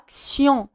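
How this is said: It is pronounced the French way. "في الفرنسي"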